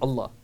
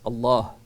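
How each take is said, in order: First: The second vowel is said short. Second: The second vowel is drawn out long. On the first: The speaker calls it wrong. "Allah's name is not Allah" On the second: The speaker calls it right. "it's Allah. There's a med there"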